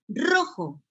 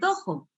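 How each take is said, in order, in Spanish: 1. La palabra empieza con sonido R. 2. La palabra empieza con sonido D. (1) "se dice rojo" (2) "no se dice dojo"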